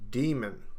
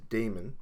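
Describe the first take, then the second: First: The first vowel sounds like 'dee'. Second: The first vowel sounds like 'day'. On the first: The speaker calls it right. "it should be pronounced as demon" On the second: The speaker calls it wrong. "people pronounce demon as spelled D A E M O N as Damon. And it's usually uh, quite amusing"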